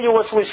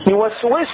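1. الحركة بعد السين خفيفة وقصيرة. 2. الحركة بعد السين مشبعة وممدودة.

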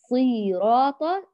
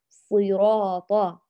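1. الحركة الأولى ممدودة بقدر الثانية. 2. الحركة الأولى قصيرة، والثانية طويلة. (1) "هكذا ساوينا بين الزمن الصاد والراء، ومضطنا الصاد وأدخلنا ياء" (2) "بخفض الفك في الصاد وإعطائها حركة واحدة فقط"

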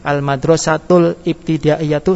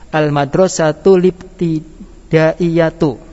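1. Huruf 'l' mengakhiri sebuah suku kata sebelum 'ibtida' yang terpisah. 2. Huruf 'l' menyambung dengan lancar ke 'libtida' tanpa jeda. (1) "Al-Madrasatul Ibtida'iyatu salah" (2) "Lam dihidupkan menjadi lib. Baca Libtida'iyatu"

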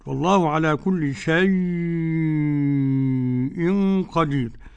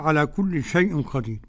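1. الحركة في shay تُمدّ مدًا طويلًا جدًا. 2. الحركة في shay قصيرة، ولا تُطال. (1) "ست حركات" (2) "بدون مد كده"

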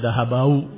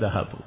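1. Kata itu berakhir dengan bunyi au. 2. Kata itu berakhir dengan u biasa. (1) "enggak bisa dibaca dahabau, itu enggak bisa" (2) "Maka dibaca dahabu"

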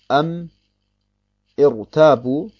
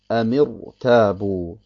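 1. Ein Glottisschlag trennt die beiden Wörter. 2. Die Wörter gehen ohne Glottisschlag ineinander über. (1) "Beim Lesen allerdings sagt man nicht am Irrtabu" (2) "Nehmen wir als Beispiel die beiden Worte Amirtabu"

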